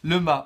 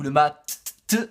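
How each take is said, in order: First: The word ends without a T sound. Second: The word ends with a T sound.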